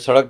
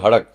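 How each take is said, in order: First: The word begins with an s sound. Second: The word begins with an h sound. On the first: The usual way most speakers say it. "आप बोलोगे" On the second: The way local speakers in that region say it. "तो बोलेंगे"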